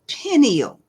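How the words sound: The first vowel is said as an ee sound. "That's a non American pronunciation"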